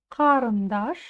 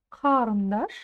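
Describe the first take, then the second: The two takes are said the same way.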